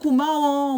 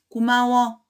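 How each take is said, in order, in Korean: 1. 감격해서 들뜬 목소리로 말한 것이다. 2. 표정 없이 밋밋한 목소리로 말한 것이다. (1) "감격함이 이제 드러나는 거죠. 그리고 목소리도 막" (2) "아무런 표정 없이 목소리도 그냥 밋밋하게"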